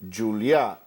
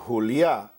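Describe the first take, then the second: First: The J is a soft sound, not an H. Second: The J is a raspy H-like sound. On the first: "is in Catalan" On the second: "would be in Spanish"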